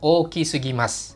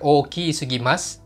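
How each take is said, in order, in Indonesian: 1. Vokal pada 'ki' diucapkan pendek. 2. Vokal pada 'ki' diucapkan panjang. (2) "Ki-nya jangan dipanjangin ya. Jadi bukan"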